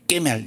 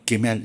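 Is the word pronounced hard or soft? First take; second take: hard; soft. First: The word is pronounced hard and forcefully. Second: The word is pronounced soft and gently. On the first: The speaker calls it wrong. "좀 강하게 발음을 한" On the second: The speaker calls it right. "이렇게 부드럽게 하는 게 좋습니다"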